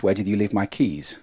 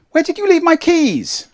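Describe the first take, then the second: First: Calm, lower-pitched question; low-pitched, unexcited. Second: Very high, louder frantic question; high-pitched, excited. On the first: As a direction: ask it low and without excitement. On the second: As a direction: ask it way up high in alarm. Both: Shown as a demonstration. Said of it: "change your excitement just with pitch".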